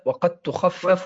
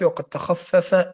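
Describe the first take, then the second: First: تخفف drawn out slowly for emphasis; a teacher slowly repeating وقد تخفف. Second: Said in the usual way. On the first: Shown as a demonstration.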